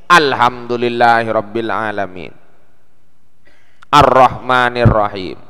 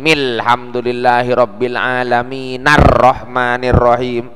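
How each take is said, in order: First: A glottal stop separates alamin from ar-Rahman. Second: Alamin runs straight into ar-Rahman without a stop. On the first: The phrases are read as separate units. "Kalau dipisah" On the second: The phrases are read as one connected unit. "Tapi kalau disambung hilang hamzah itu"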